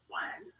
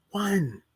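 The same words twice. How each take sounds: First: A breathy whispered "One.". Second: Said in the usual way. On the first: Shown as a demonstration. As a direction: whisper "One." to drive it home. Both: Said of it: "You only get one life".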